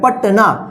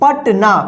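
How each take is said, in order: Both takes have the same delivery.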